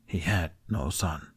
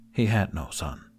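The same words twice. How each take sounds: First: Quieter, slower repetition to himself; slow, soft inner resolve; softer inner echo. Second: Said in the usual way. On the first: A narrator's reading. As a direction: say it again as a private vow. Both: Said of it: "repeated inwardly".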